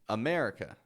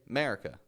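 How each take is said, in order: First: The first vowel is kept as a schwa. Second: The first vowel is dropped entirely. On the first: The speaker calls it right. "getting the schwa in the beginning" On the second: The speaker calls it wrong. "now these people will just say America"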